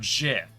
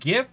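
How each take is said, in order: First: It begins with a soft G sound. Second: It begins with a hard G sound. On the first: The speaker calls it wrong. "s- soft G" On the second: The speaker calls it right. "with a hard"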